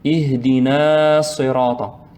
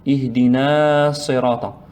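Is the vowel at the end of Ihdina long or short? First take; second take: long; long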